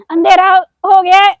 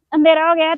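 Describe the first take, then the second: First: High, loud whiny wail; mock whining. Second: Said in the usual way. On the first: To her viewers, a loud mock whine that it's dark. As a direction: whine it like a tired child. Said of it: "repeats the line plainly". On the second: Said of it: "first said whining".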